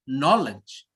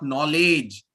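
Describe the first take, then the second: First: The stress is on the first syllable. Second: The stress is on the second syllable. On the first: The speaker calls it right. "put pressure on the first one" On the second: The speaker calls it wrong. "not knowledge"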